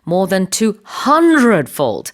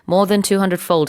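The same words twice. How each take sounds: First: The phrase is said with strong emphasis. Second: The phrase is said plainly, without extra emphasis. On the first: "이렇게 강조를 한" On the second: "그냥 ... 하지 않고"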